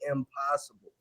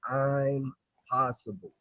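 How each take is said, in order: First: It starts with a short 'im' sound. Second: It starts with the long vowel of 'I'm'. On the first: Something cannot be done. "most people pronounce it impossible" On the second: The speaker is capable of it. "the word actually says I'm possible"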